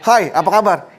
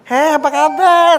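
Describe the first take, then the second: First: It is said in a plain, ordinary voice. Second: It is said in a changed, put-on voice. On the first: This is how the guy used to talk. "ngomong biasa aja" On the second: This is how the guy talks now. "sekarang udah udah beda gitu ngomongnya"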